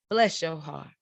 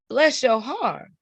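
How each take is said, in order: First: Restrained Midwestern "bless your heart". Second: High, slow Southern "bless your heart"; sugary Southern politeness hiding an insult, pitched high. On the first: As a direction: say it understated, like a polite Midwesterner. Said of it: "So Midwest, she said". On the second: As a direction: draw it out like a Southern lady. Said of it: "So down south, she said". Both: Acted.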